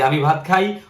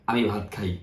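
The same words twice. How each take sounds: First: খাই lifted on a rising end; teacher giving the Bangla order of আমি ভাত খাই; rising statement. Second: আমি ভাত খাই dropped low and quiet, stress on আমি; teacher quietly repeating the same word order; soft, low repeat. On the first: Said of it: "আমরা বলি". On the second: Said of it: "ওরাও বলে". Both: Shown as a demonstration.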